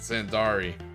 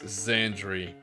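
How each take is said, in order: First: The name is said with three syllables. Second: The name is said with two syllables. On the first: The speaker calls it wrong. "For years I've been pronouncing it Zandari" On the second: The speaker calls it right. "It's Zandri"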